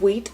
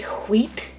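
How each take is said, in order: First: It starts with a plain W, no H. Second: It starts with a breathy, emphasized H sound.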